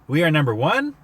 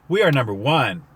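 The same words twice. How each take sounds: First: The voice rises at the end like a question. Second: The voice falls at the end like an exclamation. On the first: It is asked as a question. "Say it with a question mark" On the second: It is declared with excitement. "say it with an exclamation point"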